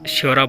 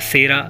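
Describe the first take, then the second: First: The word begins with a 'shy' glide sound. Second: The word begins with a plain 's' sound. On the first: "इनको श्योरा बोला जाता है" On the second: "pronunciation में थोड़ी दिक्कत होती है तो सेरा इनको बोला जाता है"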